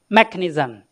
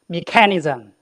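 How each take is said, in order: First: It is said in a British English accent. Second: It is said in a Chinese English accent. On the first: "In the British English" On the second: "In the Chinese English, ... So that's Chinglish"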